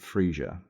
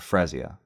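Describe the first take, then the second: First: The name is said as Frisia. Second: The name is said as Frezia. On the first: The speaker calls it right. "I pronounce it Frisia" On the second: The speaker calls it wrong. "I think Frezia sounds stupid"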